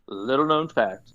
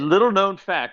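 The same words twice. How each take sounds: First: The phrase is spoken slowly. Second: The phrase is spoken quickly.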